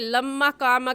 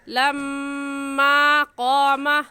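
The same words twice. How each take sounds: First: The vowel after the m is kept short. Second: The vowel after the m is drawn out. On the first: The speaker calls it wrong. "कहना गलत है" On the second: The speaker calls it right. "सही है लम्मा कामा। लम्मा को हमने क्यों खींचा"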